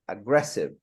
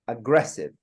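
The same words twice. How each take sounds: First: The stress is on the second syllable. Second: The same.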